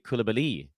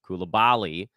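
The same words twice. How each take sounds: First: The stress falls on the last syllable. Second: The stress falls before the last syllable. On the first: This is the French pronunciation. The speaker calls it right. "the accent actually is on the last syllable" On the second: This is the Americanized pronunciation. The speaker calls it wrong. "That's more of an American thing. Koulibaly is how we do it here in the States"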